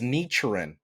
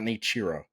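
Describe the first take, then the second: First: The name ends with an n sound. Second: The name ends with a vowel sound. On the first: The speaker calls it right. "it's Nichiren" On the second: The speaker calls it wrong. "not Nichiro"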